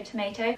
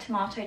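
First: Tomato with "ay": "to-may-to"; American tomato. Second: Tomato with a broad "ah": "to-mah-to"; British tomato. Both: Shown as a demonstration. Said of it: "just an accent thing".

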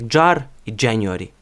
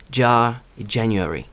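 First: Jar and January with a hard дж and sounded r; Ukrainian-accented jar, January; too-hard Ukrainian дж. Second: Jar and January with a soft English j; native-style soft j in jar, January; softer English j. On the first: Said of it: "ми вимовляємо його занадто твердо". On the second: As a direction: jar with the final r dropped, January lightly. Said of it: "Бачите, м'якше набагато". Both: Shown as a demonstration.

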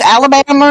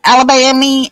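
First: "Alabama" ending in an -er sound; Alabama as "Alabamer". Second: "Alabama" ending in an -ee sound; Alabama as "Alabammy". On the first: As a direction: say "Alabama" with a final -er. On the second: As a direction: say "Alabama" with a final -ee. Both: Shown as a demonstration. Lists variants of Alabama.

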